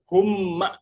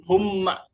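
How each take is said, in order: No difference in how they are said.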